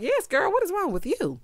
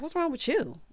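First: High-pitched sassy challenge; sassy echo. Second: Higher, softer mock attitude; full-on attitude. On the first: Acted. Host echoing his question back, sassy attitude. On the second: Retelling him confronting someone, mock attitude. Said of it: "got a full-on attitude".

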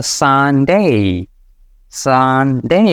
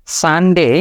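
First: সানডে with a long drawn আ; stretched Sunday. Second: সানডে said fast, vowel short; the rushed everyday সানডে; quick Sunday. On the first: Teacher models the long vowel. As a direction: draw out the আ in সানডে. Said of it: "এটাকে টান দিয়ে নিতে হয়". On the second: Teacher shows the rushed common সানডে. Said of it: "খুব fast বলি". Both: Shown as a demonstration.

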